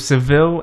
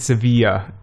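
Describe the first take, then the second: First: The name ends in an English 'vil' sound. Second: The name ends in a Spanish 'vee-ya' sound. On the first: The speaker calls it wrong. "Why do I call it Seville?" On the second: The speaker calls it right. "Sevilla is the right way to say it"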